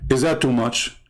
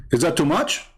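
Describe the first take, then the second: First: "Is that too much?" low and falling, stress on "that"; falling rhetorical question. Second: "Is that too much?" rising on "much", a genuine ask; rising question. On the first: Repeating the question to viewers as a falling rhetorical jab. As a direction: drop it flat and lower on "that", rhetorical. Second take, falling, lower. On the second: Asking viewers whether it's too much, rising at the end. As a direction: lift "much" up as a real question. Asks twice, rising then falling. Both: Acted.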